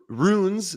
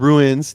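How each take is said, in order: First: The word is said as one syllable. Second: The word is said as two syllables. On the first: The speaker calls it right. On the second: The speaker calls it wrong. "not ruins"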